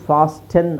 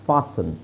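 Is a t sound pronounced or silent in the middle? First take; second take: pronounced; silent. First: A t sound is heard in the middle. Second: No t sound is heard in the middle. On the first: The speaker calls it wrong. "ಫಾಸ್ಟನ್ ಅಲ್ಲ" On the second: The speaker calls it right. "ಫಾಸ್ಟನ್ ಅಲ್ಲ ಫಾಸನ್"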